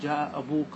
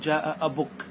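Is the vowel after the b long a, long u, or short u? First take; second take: long u; short u. First: The vowel after the b is a long u. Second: The vowel after the b is a short u. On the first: This is the main and most widespread usage. "لغة الإتمام ... فتأتي لها بالواو" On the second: This is a less common usage that drops the long vowel. "انقص هذه الحروف ... وتكتفي بالضمة"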